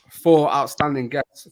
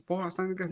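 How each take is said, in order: First: Said in the usual way. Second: Self-doubting question. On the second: Shown as a demonstration. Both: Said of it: "No, I've got three outstanding guests".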